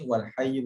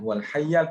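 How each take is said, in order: First: The second word ends with a 'u' vowel. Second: The second word ends with an 'a' vowel. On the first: The words form a subject and predicate. "huwal hayyu pun boleh" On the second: The word works as an attribute describing the noun. "Huwal hayyal pun boleh"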